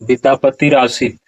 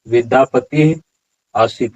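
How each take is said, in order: First: An r sound links the two words. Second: No r sound is heard between the words. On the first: The speaker calls it wrong. "उच्चारण इस तरह से नहीं होगा" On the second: The speaker calls it right. "उच्चारण क्या होगा"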